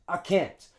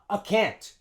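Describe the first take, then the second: Both takes have the same delivery.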